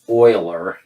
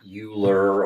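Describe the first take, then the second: First: The word begins with an O sound. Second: The word does not begin with an O sound. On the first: The speaker calls it right. "it's pronounced Euler" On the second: The speaker calls it wrong. "not Euler or any other version"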